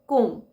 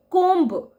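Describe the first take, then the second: First: "कोम" with no b at the end; "कोम" clipped clean, b silent. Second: "कोम्ब" said with the b sounded; "कोम्ब" with a clear final b, louder; wrong pronunciation. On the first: Teacher gives the right way, "कोम" without b. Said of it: "B is silent". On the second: Teacher shows the wrong way, "कोम्ब" with b. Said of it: "हमें कोम्ब नहीं बोलना चाहिए". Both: Shown as a demonstration.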